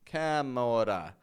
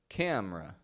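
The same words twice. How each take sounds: First: The middle vowel is pronounced clearly. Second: The middle vowel is dropped completely. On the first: The speaker calls it wrong. "You don't want to say camera" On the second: The speaker calls it right. "but rather camera, as if the E is gone"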